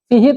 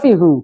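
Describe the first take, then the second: First: The word ends with an 'ee' vowel. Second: The word ends with an 'oo' vowel. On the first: It is pleasant to hear and easy to say. The speaker calls it right. "Enaknya fihi" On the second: It is the underlying original form. The speaker calls it wrong. "bukan fihu. Memang aslinya hu"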